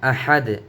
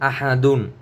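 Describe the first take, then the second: First: The word ends abruptly on a bare 'd'. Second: The word ends with an added 'un' sound. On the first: The reader stops on this word. "এখানে যদি আপনি অফ করেন তাহলে উচ্চারণ হবে আহাদ" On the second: The reader continues without stopping here. "দাল দুই পেশ দুন"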